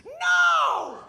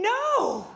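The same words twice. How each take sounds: First: Much higher, louder yelped no; startled woman shrieking at the stall; hammed-up shriek of surprise; shocked scream. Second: Said in the usual way. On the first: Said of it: "This was her reaction". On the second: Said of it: "What do you mean".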